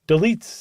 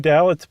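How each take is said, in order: First: The name sounds like 'de-LEETS'. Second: The name sounds like 'DAL-its'. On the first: The speaker calls it right. "That's what I saw" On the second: The speaker calls it wrong. "I want to say Dalitz, but it's not Dalitz"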